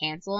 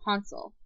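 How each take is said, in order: First: The name is said with an American pronunciation. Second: The name is said with a German pronunciation. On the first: "like us Americans, we pronounce it" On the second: "in the German, the correct German form"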